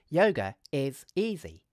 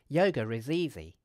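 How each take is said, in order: First: Each word is said separately with breaks. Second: The words run together with a linking sound. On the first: "we could say each of the three words separately" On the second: "we could use connected speech"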